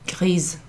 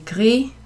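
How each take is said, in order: First: The word ends with a z sound. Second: The word ends on the vowel, no final consonant. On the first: The thing described is feminine. "with the E at the end" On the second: The thing described is masculine. "with the S, you don't pronounce it"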